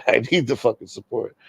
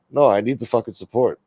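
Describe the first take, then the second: First: Laughing through the repeated plea; amused, half-joking plea. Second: Said in the usual way. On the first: Real, not acted. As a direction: laugh at your own begging. Repeats plea, second time laughing.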